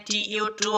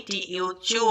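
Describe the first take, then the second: First: TU read with a t sound, "টু"; wrong reading. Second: TU read with a ch sound, "চু"; correct reading. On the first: Teacher naming the reading learners should avoid, wrong reading. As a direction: say "টি ইউ টু" with a plain t. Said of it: "টি ইউ টু হয়নি". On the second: Teacher showing learners the sound TU makes, correct reading. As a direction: say "টি ইউ চু", the t turned to ch. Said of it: "টি ইউ চু হচ্ছে". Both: Shown as a demonstration.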